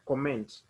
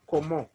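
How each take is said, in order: First: The final t sound is pronounced. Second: The final t sound is left silent. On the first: "it will sound like comment in English" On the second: "So we'll pronounce like comment"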